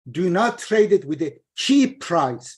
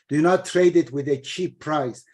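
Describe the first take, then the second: First: The stress falls on the word cheap. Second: The stress falls on the words not trade. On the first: Selling at a better price is allowed. The speaker calls it wrong. "means sell it with a better price" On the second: The trade itself is forbidden. The speaker calls it right. "Emphasis should be on the first part of the verse"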